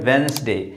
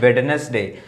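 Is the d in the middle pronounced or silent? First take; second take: silent; pronounced. First: The middle d sound is left silent. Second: The middle d sound is clearly pronounced. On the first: The speaker calls it right. "ये है वेंसडे" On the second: The speaker calls it wrong. "इसको लोग बोलते हैं वेडनेसडे, नहीं ये वेडनेसडे नहीं है"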